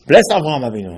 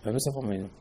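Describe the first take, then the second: First: Louder, declaiming the blessing; proclaimed blessing. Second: Softer, murmured repeat of the blessing; quiet echo. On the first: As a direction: call it out like a proclamation. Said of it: "and he said". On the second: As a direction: echo it back under your breath. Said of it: "I said". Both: Retold or imitated.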